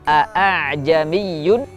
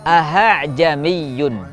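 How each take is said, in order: First: The second glottal stop is pronounced fully and clearly. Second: The second glottal stop is replaced by an h. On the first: "membaca dengan jelas hamzah yang kedua" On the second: "membaca hamzah kedua menjadi huruf ha"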